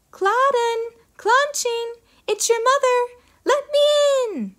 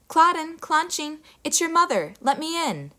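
First: Very high, slow sugary ogress call; an ogress faking a sweet mother; sweet fake voice. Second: Higher gentle mother calling; a mother back home at the door; mother's voice. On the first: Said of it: "making her voice very sweet". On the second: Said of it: "sounded exactly like the girl's mother". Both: A narrator's reading.

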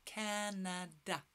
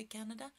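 First: "Canada" slowly, split as Ca-na-da; syllable by syllable. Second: Said in the usual way. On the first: Shown as a demonstration. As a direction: model "Canada" in three separate, softer beats. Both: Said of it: "Can you say Canada?".

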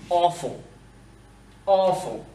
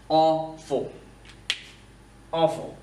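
No difference in how they are said.

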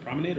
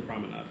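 First: First option, PROMENADE rhyming with lemonade. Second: PROMENADE ending in "nahd", quick and soft; second option, PROMENADE rhyming with "odd". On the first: Host asking which pronunciation is right, promenade with AY. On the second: Host asking which pronunciation is right, promenade with AH. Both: Shown as a demonstration. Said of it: "Is it promenade or promenade".

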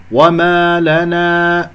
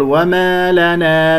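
First: وما لنا chanted slowly with open, full long aa; full open alif. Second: وما لنا with long aa fronted toward e; thin the alifs of وما لنا; thinned alif. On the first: Teacher models the correct alif, full chant. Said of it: "ولا تقل وما لنا". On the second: Teacher shows what not to say, thinned alifs. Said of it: "لا تقلل صوت الألف". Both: Shown as a demonstration.

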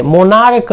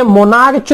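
First: मोनार्क ending in hard "k". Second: मोनार्च ending in "ch" as in church; mistaken CH sound. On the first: Teacher correcting the misreading, मोनार्क with "k". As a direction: say मोनार्क with a final क. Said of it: "मोनार्क है". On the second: Teacher showing the misreading, मोनार्च with "ch". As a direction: say मोनार्च with a final च. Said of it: "तो ये मोनार्च नहीं है". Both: Shown as a demonstration.

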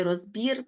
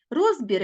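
First: Розбір said as roz-BIR; розбір with the ending strong; stress on last syllable. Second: Розбір said as ROZ-bir; розбір with the opening syllable strong; stress on first syllable. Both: Shown as a demonstration. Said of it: "слова з подвійним наголошенням".

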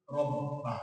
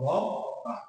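First: রব্বা read as one word, lower and with a falling end; teacher joins the letters into রব্বা; joined reading. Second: রব্বা repeated in a whisper with a rising end; whispered echo. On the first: শিক্ষক ছাত্রদের জন্য রব্বা একসাথে পড়ে দেখান. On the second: শিক্ষক রব্বা ফিসফিস করে আবার বলেন. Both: Shown as a demonstration. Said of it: "কি হলো?".

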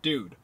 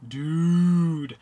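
First: Said in the usual way. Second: Long, loud drawn-out dude; stretched loud dude. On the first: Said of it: "saying the word". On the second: Shown as a demonstration.

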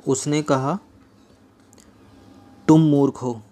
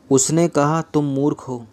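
First: Long pause after कहा, before तुम मूर्ख हो; quote set apart. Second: Said in the usual way. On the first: Shown as a demonstration. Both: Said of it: "inverted coma के अंदर".

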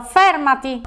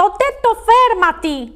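First: Mildly annoyed command, near usual pitch; irritated outburst. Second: High, drawn-out angry command; furious cry. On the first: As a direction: order it to stop with restrained irritation. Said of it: "sbottò il ladro". (ordine un po' seccato) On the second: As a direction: insist furiously, stretching the words up high. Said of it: "gridò infuriato". (ordine infuriato, acuto) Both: A narrator's reading.

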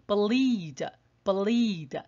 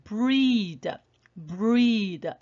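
First: Bleed with a clearly sounded b before l; "bleed" with distinct b and l. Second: Breed with b and r run together; slow model of breed as one blended sound; linked br. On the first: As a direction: separate b then l, almost buh-leed. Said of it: "这个b发音就比较清楚咯". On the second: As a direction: glue b straight to r in "breed". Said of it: "这个是连在一起的". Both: Shown as a demonstration.

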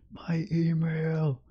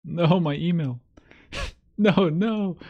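First: Slow, breathless whisper; slow whispered groan. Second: Higher and louder, yelping in alarm; real jolt of alarm at the screen; alarmed cry. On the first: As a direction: hush it like a secret slipped out. Hiding exposed email on stream. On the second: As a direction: blurt it out in sudden panic. Panicked at own email on screen. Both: Real, not acted.

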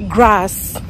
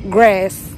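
First: "grass" with an open African a; "grass" with a broad, back vowel, as in "father"; Kenyan pronunciation. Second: "grass" with a fronted American a; "grass" with the vowel of "cat"; American pronunciation. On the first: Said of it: "when I'm saying it". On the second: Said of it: "when they're saying it". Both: Shown as a demonstration.

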